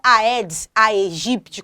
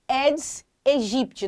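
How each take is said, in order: First: The 'ae' is said as two vowels, 'a-e'. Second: The 'ae' is said as a single 'e' sound. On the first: The speaker calls it wrong. "não é Aedes aegypti, como você escuta muito por aí" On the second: The speaker calls it right. "ae em latim tem a pronúncia e"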